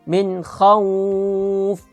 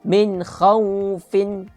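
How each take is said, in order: First: The last word stops without the final -in. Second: The last word ends with a final -in sound. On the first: The reader stops at this word. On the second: The reading carries on to what follows.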